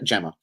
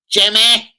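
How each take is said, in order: First: Said in the usual way. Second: High, shouted Scouse attempt at "Jimmy"; loud, badly attempted Scouse call. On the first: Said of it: "I'm not saying Jimmy, it's". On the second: Shown as a demonstration. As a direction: belt the name out in would-be Scouse. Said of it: "I can't say Gemma and Scouse".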